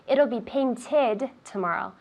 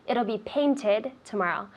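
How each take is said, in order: First: The -ed ending of 'painted' is fully pronounced. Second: The -ed ending of 'painted' is fully pronounced.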